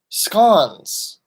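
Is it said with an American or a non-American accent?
non-American. It is said with a non-American pronunciation.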